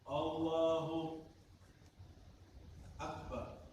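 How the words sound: There is a long pause between the words. The opening phrase is invalid and must be repeated. The speaker calls it wrong. "Berhentinya terlalu lama"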